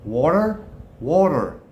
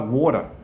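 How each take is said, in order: First: Put-on American WATER with a strong final R; American accent. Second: Said in the usual way. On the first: Shown as a demonstration. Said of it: "with an American accent". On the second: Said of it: "you can only say that one way".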